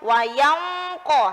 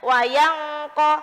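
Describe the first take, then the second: First: The nasal sound is heavy and thick. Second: The nasal sound is light and thin. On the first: The speaker calls it right. "wayang ko harus tebal" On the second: The speaker calls it wrong. "nggak boleh dengan wayang ko"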